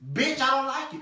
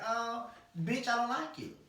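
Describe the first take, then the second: First: It is said hard and forcefully. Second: It is said lightly and softly.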